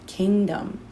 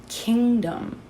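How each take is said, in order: Both takes have the same delivery.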